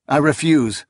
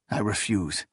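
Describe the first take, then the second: First: Firm refusal. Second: Quiet refusal. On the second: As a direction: say "I refuse." softly, held back. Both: A narrator's reading. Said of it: "he replied".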